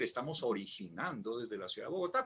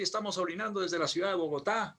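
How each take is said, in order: First: The words are said clearly with every syllable. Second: The words are rushed and a syllable is dropped. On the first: It says the intended thing. The speaker calls it right. "él quería decir" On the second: It sounds like a different, embarrassing word. The speaker calls it wrong. "como atropellamos las palabras, suena algo totalmente diferente"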